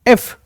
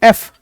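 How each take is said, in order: The two takes are said the same way.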